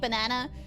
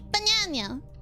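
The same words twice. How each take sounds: First: It is said in a mild, normal Australian accent. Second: It is said in an exaggerated Australian accent.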